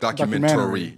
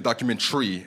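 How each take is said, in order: First: The ending keeps the vowel, sounding like 'tary'. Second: The ending is squeezed into one syllable, 'tree'. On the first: "I'm saying it like documentary" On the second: "you're saying documentary"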